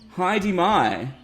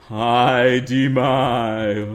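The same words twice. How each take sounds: First: It is said in a normal voice. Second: It is said in a dark, scary voice.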